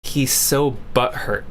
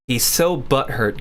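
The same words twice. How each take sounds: First: Lower, slow mocking drawl; slow sneering parody; mocking repeat. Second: Lower, slow sneering echo; drawn-out mock repeat. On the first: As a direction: echo it back with scorn. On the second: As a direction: say it again with contempt. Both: Mocking the chat message back.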